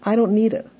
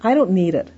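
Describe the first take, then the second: First: It is said in a nice tone. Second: It is said in a blunt tone.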